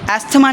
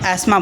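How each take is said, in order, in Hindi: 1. 'th' ध्वनि साफ़ बोली जाती है। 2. 'th' ध्वनि छोड़ दी जाती है। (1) "एस्थमा नहीं बोलते हैं इसे" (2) "इसे हम एस्मा बोलते हैं"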